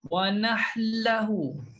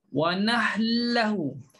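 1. Bunyi n hilang dan menyatu dengan l. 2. Bunyi n hilang dan menyatu dengan l.

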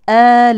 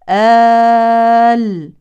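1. الكلمة تتصل بالتي بعدها والحركة فيها قصيرة. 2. الكلمة يُوقف عليها والمد فيها طويل. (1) "لو وصلنا لا يوجد مد عارض للسكون، بدل فقط" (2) "إن وقفنا نقول آل آل، إما حركتين أو أربع أو ست حركات"

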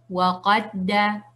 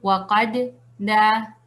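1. Las dos letras se fusionan en un solo sonido doblado. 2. Las dos letras se pronuncian por separado. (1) "vamos a decir waqadda" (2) "En vez de decir waqadda"

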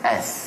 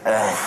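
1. Bunyi itu ditahan dengan panjang sedang. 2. Bunyi itu dipanjangkan sangat. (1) "dia kena az" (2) "Jangan panjang sangat"

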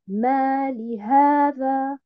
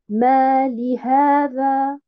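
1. Il y a une pause après ma, li se rattache au mot suivant. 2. Il y a une pause après ma, li se rattache au mot suivant.

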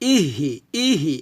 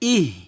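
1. h-এর পরে একটি i স্বরধ্বনি যোগ করা হয়। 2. h হলো হালকা একটু বাতাস, এর পরে কোনো স্বরধ্বনি নেই। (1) "এটা কিন্তু করবেন না" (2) "হালকা করে বলবেন, বাতাস বের করবেন, ইহ এভাবে"

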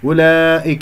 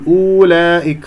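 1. الحركة الأولى صوت u قصير. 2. الحركة الأولى صوت u مطوّل. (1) "هذه الواو والصفر المستطيل فوقها تكتب ولا تلفظ" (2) "خطأ أن تقول أولئك خطأ"

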